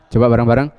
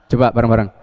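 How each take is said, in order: No difference in how they are said.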